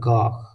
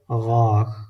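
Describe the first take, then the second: First: The word begins with a hard g sound. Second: The word begins with a throaty gh sound. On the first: The speaker calls it wrong. "some people the Ghain change to Gab" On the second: The speaker calls it right. "correct pronunciation is Ghain"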